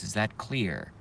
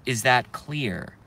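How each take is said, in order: First: Much softer, lower and calmer. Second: Said in the usual way. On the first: Shown as a demonstration. Streamer repeating the question to trolls, now calm and soft. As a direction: drop the voice down to calm. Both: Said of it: "In a very calm voice".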